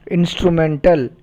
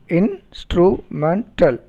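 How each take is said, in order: First: Said in the usual way. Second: "instrumental" slowly split in, stru, men, tal; syllable by syllable. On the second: Shown as a demonstration. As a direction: pause after each syllable of "instrumental". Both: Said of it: "polysyllabic words".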